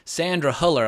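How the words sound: The name is said with an American accent. "they pronounced it with an American accent"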